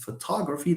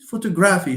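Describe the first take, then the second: First: The stress falls on the antepenultimate syllable. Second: It is said with an Italian-sounding stress pattern. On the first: The speaker calls it right. "That's the natural way of pronouncing this" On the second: The speaker calls it wrong. "You are Italian"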